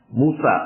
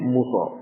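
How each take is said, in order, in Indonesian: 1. Nama itu berakhir dengan vokal 'a'. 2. Nama itu berakhir dengan vokal 'o'. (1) "Musa maksudnya" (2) "Orang Jawa bilangnya Muso"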